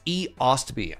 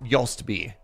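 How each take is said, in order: First: The name starts with a separate E sound. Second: The name starts with a Y sound. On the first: This is the current way the name is said. The speaker calls it right. "It's E Ostby" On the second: This is the old way the name was said. The speaker calls it wrong. "I used to pronounce it Yostby"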